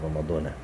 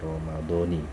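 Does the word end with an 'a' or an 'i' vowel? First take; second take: a; i. First: The final syllable ends in an 'a' vowel. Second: The final syllable ends in an 'i' vowel. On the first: The speaker calls it wrong. "bukan ramadhana" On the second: The speaker calls it right. "nunnya itu jangan dibaca fathah, baca kasrah"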